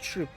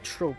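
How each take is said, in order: First: The vowel sounds like 'oo' in food. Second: The vowel sounds like 'oh' in rope. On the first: This is how others say it. "I've heard people say call it troop" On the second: This is how the speaker imagined it. "I thought of it like trope, like T R O P kind of like pronunciation"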